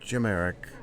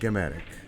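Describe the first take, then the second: First: The name is said the current American way. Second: The name is said the original, older way. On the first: This is how the family says it in the United States now. The speaker calls it right. "In the United States, the name is, is pronounced Jimeric" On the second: This is how the name was said before the change. The speaker calls it wrong.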